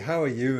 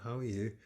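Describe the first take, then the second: First: It is said in a loud voice. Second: It is said in a quiet voice. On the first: The person arrives full of energy. "in a very loud voice" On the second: The person arrives subdued and reserved. "talks very quietly"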